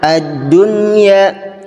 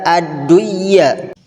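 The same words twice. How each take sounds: First: The n is pronounced clearly before the y. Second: The n merges into the following y sound. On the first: The speaker calls it right. "tapi yang benar adalah ad-dunya" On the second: The speaker calls it wrong. "tidak dibaca ad-dunya"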